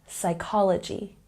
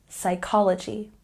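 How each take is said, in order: The two takes are said the same way.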